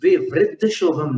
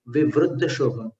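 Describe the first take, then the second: First: विवृद्ध as 'vivriddha', with i; i after the r in विवृद्ध, as the form to avoid; rejected i pronunciation. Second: विवृद्ध as 'vivruddha', with u; u after the r in विवृद्ध; correct u pronunciation. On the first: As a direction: say विवृद्ध with 'vri'. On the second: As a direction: say विवृद्ध with 'vru'. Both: Shown as a demonstration. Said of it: "विवृद्ध शोभम नहीं".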